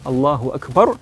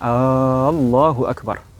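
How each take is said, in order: First: The opening vowel of Allahu is kept short. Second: The opening vowel of Allahu is drawn out long. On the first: It states that God is greatest. The speaker calls it right. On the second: It asks whether God is greatest. The speaker calls it wrong.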